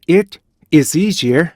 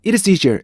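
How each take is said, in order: First: 'it', small pause, then 'is easier'; separated demo of 'it / is easier'; subject-verb break. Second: 'It is' run quickly into one word; higher-pitched linked 'It is easier'; no break. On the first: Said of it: "이렇게 끊어 있는 거하고요". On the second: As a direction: glide from 'It' straight into 'is'. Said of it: "이렇게 끊어 읽지 않는 거하고". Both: Shown as a demonstration.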